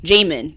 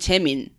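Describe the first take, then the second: First: The name is read with an English pronunciation. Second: The name is said with a Korean pronunciation. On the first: The speaker calls it wrong. "how would you read it?" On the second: The speaker calls it right. "now that I'm going to change this to my Korean tongue"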